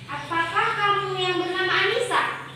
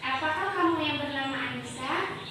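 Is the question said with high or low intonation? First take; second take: high; low. First: The question is said high, with raised pitch. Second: The question is said low, with falling pitch. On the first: "Terus pakai intonasi tinggi gini. ... Kan tinggi" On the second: "itu masih masih intonasi yang rendah. ... Itu kan kayak nurun gitu kan?"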